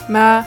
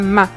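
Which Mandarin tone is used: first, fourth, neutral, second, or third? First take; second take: first; fourth. First: The syllable is said with the first tone. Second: The syllable is said with the fourth tone. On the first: It means mother. "Le premier" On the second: It is an insult. "Et le quatrième"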